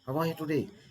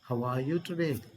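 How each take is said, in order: First: It is said quickly and briskly. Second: It is said slowly and gently. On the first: The speaker is in a rush to get somewhere. "because of our hurrying" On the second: The speaker is caring for a sick friend. "when we go to hospitals to meet our friends who are hospitalized"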